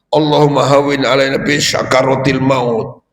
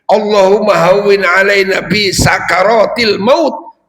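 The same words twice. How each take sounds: First: Sakaratil begins with a sh sound. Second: Sakaratil begins with a plain s sound. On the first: It refers to giving thanks. The speaker calls it wrong. "Jangan pakai sin besar" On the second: It refers to the agony of dying. The speaker calls it right. "Kalau pakai sin kecil"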